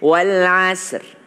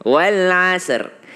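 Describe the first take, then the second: The two takes are said the same way.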